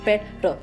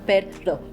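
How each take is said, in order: Both takes have the same delivery.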